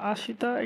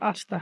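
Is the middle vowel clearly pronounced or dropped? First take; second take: pronounced; dropped. First: The middle vowel is drawn out and fully pronounced. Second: The middle vowel is dropped, sounding like asta. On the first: It is read slowly to make it easier to follow. "এখানে আমি টান দিয়ে পড়লাম যেন আপনাদের বোঝার সুবিধা হয়" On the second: This is how it is actually pronounced. "এটা উচ্চারণ হবে কি আস্তা"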